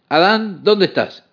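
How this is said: It is said in a harsh, stern, commanding tone. Punishment and arrest are coming. The speaker calls it wrong. "el tono de voz fue el de un oficial que viene para arrestarlo y meterlo a uno en la cárcel"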